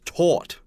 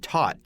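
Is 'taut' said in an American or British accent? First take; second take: British; American. First: The vowel is British, not rhyming with 'not'. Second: The vowel is American, rhyming with 'not'. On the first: "In the U K, it's taut" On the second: "in America, you can say taut, T A U T, and it kind of rhymes with not"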